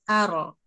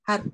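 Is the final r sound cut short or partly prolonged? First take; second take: prolonged; cut short. First: The r is thick and flows on briefly. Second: The r is cut off abruptly. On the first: The speaker calls it right. "Tebal mengalir sebagian" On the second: The speaker calls it wrong. "Tidak hanya har"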